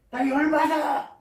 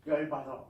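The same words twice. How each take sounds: First: Sudden loud, high-pitched mock yell; angry outburst. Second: Said in the usual way. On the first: Preacher voices young Elihu fuming at Job's friends, angry shout. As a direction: blow up, acting out Elihu's fury.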